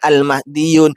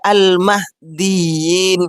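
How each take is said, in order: First: The last syllable has a u vowel. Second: The last syllable has an i vowel. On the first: The speaker calls it wrong. "bukan al-mahdiyun" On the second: The speaker calls it right. "Demikian juga al-mahdiyin"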